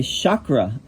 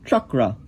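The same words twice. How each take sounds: First: Chakra said slowly as shah-kra; popular chakra. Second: Chakra starting with a tongue-back ch, chuh-kra; chakra with palatal ch. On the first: Teacher showing how people say chakra these days. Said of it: "They say chakra". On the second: Teacher modeling the Sanskrit chakra. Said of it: "You put your tongue back there and you say". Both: Shown as a demonstration.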